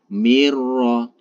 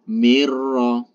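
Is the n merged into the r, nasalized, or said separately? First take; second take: merged; merged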